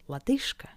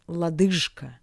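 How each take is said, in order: First: The consonant before K is a voiceless sh. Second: The consonant before K is a voiced zh. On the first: The speaker calls it right. "sounds like its paired consonant Sh" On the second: The speaker calls it wrong. "Not лодыжка"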